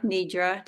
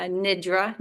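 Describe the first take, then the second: First: "nidra" with a long ee, as in "need"; long-ee pronunciation. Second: Put-on "nidra" with a short i, as in "kid"; short-i pronunciation. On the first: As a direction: say "nidra" as NEE-druh. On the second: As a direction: say "nidra" as NID-ruh, short first vowel. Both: Shown as a demonstration. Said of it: "depending how you pronounce it".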